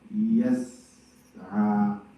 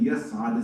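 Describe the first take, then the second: First: The word is said with a gap inside. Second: The word is said smoothly without a gap. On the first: The speaker calls it wrong. "they had a bit of a gap in between" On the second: The speaker calls it right. "instead of saying yas'a"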